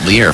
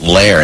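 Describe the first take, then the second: First: The name rhymes with 'ear'. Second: The name rhymes with 'air'. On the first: "You pronounced it Lear from the get-go" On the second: "people always pronounce it Lair"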